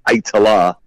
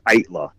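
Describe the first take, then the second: First: The name is said with three syllables. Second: The name is said with two syllables. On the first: "I accept the three-syllable version because it's kind of easier" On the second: "the official pronunciation is Itla"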